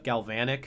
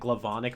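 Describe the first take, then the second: First: The word begins with the sounds 'galv'. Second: The word begins with the sounds 'glav'. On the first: The speaker calls it right. "that's one that I do know how to pronounce correctly" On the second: The speaker calls it wrong. "she said Glavonic Mechamorph instead of Galvanic"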